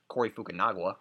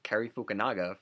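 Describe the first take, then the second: First: The first name is said as Cory. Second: The first name is said as Cary. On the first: The speaker calls it wrong. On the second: The speaker calls it right.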